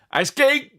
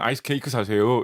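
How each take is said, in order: First: It is called out in a street-vendor tone. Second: It is said plainly, in an ordinary tone.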